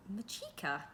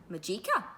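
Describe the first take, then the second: First: Softer, puzzled, falling as if testing the word; a puzzled echo of a stranger's name; puzzled repeat. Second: Courteous, offering his name with a light rise; a polite greeting from a stranger; polite introduction. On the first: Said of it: "he repeated, puzzled". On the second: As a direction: introduce yourself politely, hand out. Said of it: "he said politely". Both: Acted.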